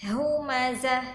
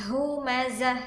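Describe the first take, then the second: The two takes are said the same way.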